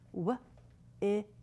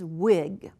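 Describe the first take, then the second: First: The word is said slowly, sound by sound. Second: The word is said at normal speed, smoothly.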